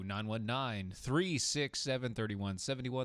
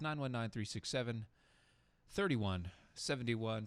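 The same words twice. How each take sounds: First: The number is said at normal speed. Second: The number is said a little slower.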